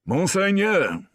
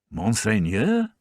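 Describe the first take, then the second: First: High, loud and slow, respectful; a sergeant announcing himself formally; formal address. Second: Slow, rising, puzzled "Monseigneur?"; puzzled repeat. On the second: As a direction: echo the word in disbelief. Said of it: "he repeated". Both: A narrator's reading.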